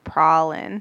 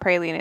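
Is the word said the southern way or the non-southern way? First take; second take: southern; non-southern. First: The word is said the southern way. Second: The word is said the non-southern way. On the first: "like down south, it's like pralin" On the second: "it's like not praline"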